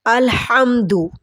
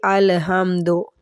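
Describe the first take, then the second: First: अलहम्दु with the ह from the throat; correct throat h. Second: अलहम्दु ending in दो instead of दू; wrong ending do. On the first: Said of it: "हा की आवाज़ हलक से निकालनी है". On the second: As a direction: say अलहम्दु with an open o at the end, the common mistake. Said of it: "दू की जगह दो पढ़ देते हैं". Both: Shown as a demonstration.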